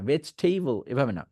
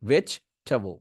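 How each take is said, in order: First: ভেজিটেবল with tay-bol ending, the mistake; wrong vegetable. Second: Relax ভেজিটেবল to vech-tuh-vul; right vegetable. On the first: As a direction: stress টেবল as tay-bol to show wrong. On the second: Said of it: "তিন ভাবে". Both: Shown as a demonstration.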